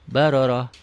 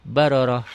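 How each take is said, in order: The two takes are said the same way.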